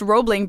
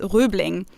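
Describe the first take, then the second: First: The name is said with English vowels. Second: The name is said with a German rounded vowel. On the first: "the bridge is pronounced Roebling in English" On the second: "so in German, it would be pronounced Röbling"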